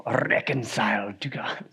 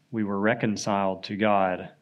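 First: Slow, whispered Scottish lilt; Scottish accent. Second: Said in the usual way. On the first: Retold or imitated. Preacher imitating Lloyd-Jones's beloved sermon line, a slow Scottish whisper. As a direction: savour it slowly in a Scottish whisper. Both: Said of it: "in that Scottish accent said".

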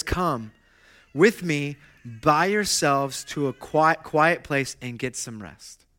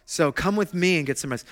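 First: Slow, hushed call to come and rest; gentle invitation. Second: Said in the usual way. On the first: Acted. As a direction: draw them in gently and slowly. Quoting Jesus' gentle invitation.

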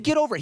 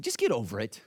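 First: High-pitched, emphatic retort; blunt friend. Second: Low, offhand brush-off; lightly voiced no-nonsense friend, pitched down; blunt friend. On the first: Retold or imitated. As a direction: imitate an exasperated friend, pitched way up. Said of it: "He said". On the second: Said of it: "a friend in our community group who's an eight".

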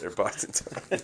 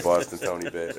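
First: Breathy whispered repeat of "Boston Tony", much softer; whispered aside. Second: Said in the usual way. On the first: Shown as a demonstration.

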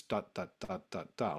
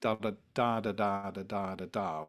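First: Even, detached "da" syllables in duple time; square, marching "da"s with no skip; march rhythm. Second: Lilting long-short "da" syllables in threes; steady, lilting triple-time "da"s; triple rhythm. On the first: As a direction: tap out "da" evenly like a march. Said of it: "like a march rhythm". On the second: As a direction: chant "da" in a skipping triple beat, first beat long. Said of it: "the rhythm in this piece is always triple". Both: Shown as a demonstration.

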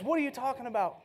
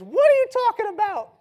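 First: Said in the usual way. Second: High, loud shrill mock mom; joking son mimics his mom, much higher and louder; mom's voice. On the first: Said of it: "I'm not gonna do the voice". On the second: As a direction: squawk it like a comic mother. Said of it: "That's what she sounds like".

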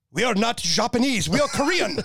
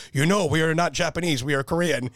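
First: High-pitched mock outburst as a Korean officer; indignant Korean colonel. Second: Lightly voiced Korean officer, near usual pitch; Korean colonel, toned down. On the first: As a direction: imitate the offended colonel, pitched way up. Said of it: "this lieutenant colonel of the roc Army". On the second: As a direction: retell the colonel's line with only a hint of imitation. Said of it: "that same colonel came up to me and he says".

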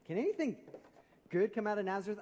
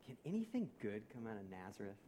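First: High-pitched, emphatic skeptical question; incredulous. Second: Low, soft, weighty question; quiet quoted doubt. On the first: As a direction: throw the question out in open disbelief. Repeats Nathanael's question, now incredulous. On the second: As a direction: let the skeptical question sink, hushed and low. Quotes Nathanael, first take weighty. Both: Retold or imitated.

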